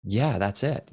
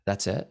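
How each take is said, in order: First: Acting out his own plain reply; matter-of-fact confirmation. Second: Imitating a mildly underwhelmed student; underwhelmed question. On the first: Teacher answering underwhelmed students, matter-of-fact confirmation. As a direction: own it with a simple yes. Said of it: "And I'm like". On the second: Students seeing the before and after, mildly underwhelmed. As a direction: ask it as a doubting student would. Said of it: "some of my students will be like".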